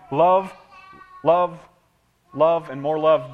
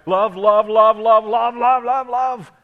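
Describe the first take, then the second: First: Each love stressed, the last slower; emphatic love. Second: Love repeated, each one louder and higher; growing bigger. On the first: Pastor to congregation, stressing each love. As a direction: lean on every love, slowing into more love. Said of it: "the word gets bigger and bigger". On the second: Pastor shows the word love getting bigger, building loud. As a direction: let love swell up like a shout. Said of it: "made the word bigger and bigger and bigger". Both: Shown as a demonstration.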